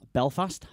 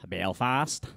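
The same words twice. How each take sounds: First: Said in the usual way. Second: Softer, put-on Belfast accent; attempted Belfast accent. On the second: Shown as a demonstration. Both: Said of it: "You can't do the accent".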